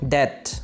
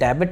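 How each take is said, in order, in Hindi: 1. इस शब्द में 'b' ध्वनि मूक है। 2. इस शब्द में 'b' ध्वनि उच्चारित होती है। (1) "बी साइलेंट है यहाँ पे" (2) "इसे डेबिट नहीं बोलेंगे"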